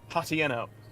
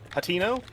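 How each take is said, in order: First: The word has an extra vowel in the middle. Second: The word has no extra vowel in the middle. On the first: The speaker calls it wrong. "My dumb, stupid brain pronounces it Hatieno" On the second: The speaker calls it right. "It's pronounced Hatino"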